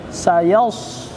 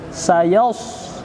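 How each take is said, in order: The two takes are said the same way.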